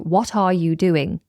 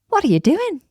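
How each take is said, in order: First: Each word is said separately and clearly. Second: The words run together with a flapped T. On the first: "very different to" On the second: "I'm saying it with a smile, and you'll hear how the words are run together"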